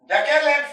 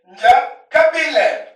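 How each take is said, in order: First: The middle syllables are contracted into one. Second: The middle syllables are said in full.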